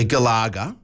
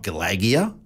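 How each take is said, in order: First: Galaga said ga-LAH-ga, three syllables with an AH; "Galaga" pronounced kuh-LAH-guh, no extra syllable; correct pronunciation. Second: Galagia said ga-LAJ-ee-a, with a J sound and an extra ee; "Galagia" pronounced kuh-LAJ-ee-uh, four syllables; wrong pronunciation. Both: Shown as a demonstration. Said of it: "Galagia is G I A at the end".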